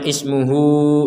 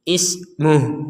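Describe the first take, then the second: First: The word ends with a u vowel. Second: The word ends on h with no vowel. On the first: The speaker calls it wrong. "Jangan dibaca ismuhu" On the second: The speaker calls it right. "Ismuh nggak ada panjang"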